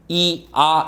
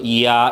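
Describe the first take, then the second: First: The two vowels are said separately with a break. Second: The two vowels are joined smoothly without a break. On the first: The speaker calls it wrong. "이렇게 발음하는 사람은 없어" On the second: The speaker calls it right. "자연스럽게 뭐 해서 묶어서"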